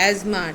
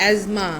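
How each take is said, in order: Both takes have the same delivery.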